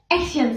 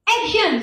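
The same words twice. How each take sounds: First: Said in the usual way. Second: High-pitched imitation of a director calling action; director's call. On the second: Director cueing the actress on set, high-pitched call. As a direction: call it out to start the take. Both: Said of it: "sutradara bilang gitu".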